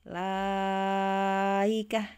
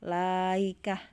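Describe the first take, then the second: First: The vowel before the hamza is held very long. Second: The vowel before the hamza is held briefly. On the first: "isba enam harokat" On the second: "qasr berarti eh la la-nya dua harokat"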